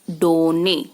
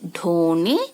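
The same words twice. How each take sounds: First: डोने with a plain unaspirated ड, no breath. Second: ढोने with a breathy aspirated ढ. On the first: Teacher contrasting the wrong unaspirated डोने. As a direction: keep the ड in डोने crisp, without air. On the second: Teacher making students hear the aspirated ढ in ढोने. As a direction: push air after the ढ in ढोने. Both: Shown as a demonstration. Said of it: "सुन रहे हो ना, आपको अंतर पता चल रहा है".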